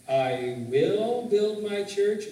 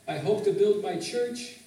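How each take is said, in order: First: Slow, louder "will", drawn out with certainty; emphatic WILL. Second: Tentative HOPE, rising on "church"; tentative misquote. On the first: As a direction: declare "I will build my church" slowly and firmly. Corrects the misquote to the real verse. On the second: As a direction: read "I hope to build my church" with a questioning lift. Tentative misquote set against the real verse. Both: Shown as a demonstration.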